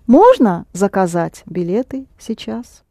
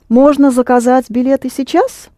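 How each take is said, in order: First: The pitch rises on the first word. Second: The pitch rises on the last word. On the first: It asks whether booking is possible at all. "Or you can raise your voice on можно" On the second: It asks whether booking can happen now. "Now let's turn it into a question"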